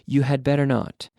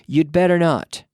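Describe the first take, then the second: First: 'You had' is said as two full words. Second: 'You had' is contracted to 'you'd'.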